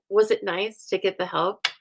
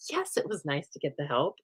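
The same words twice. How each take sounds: First: Rhetorical question lifting on HELP; posed question, voice up on "help". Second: Softer, lower-key admission; conceding. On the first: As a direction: ask it aloud as a set-up to your own answer. Asks herself, then answers. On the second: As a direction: answer your own question, dropping the volume. Answers her own question. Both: Acted.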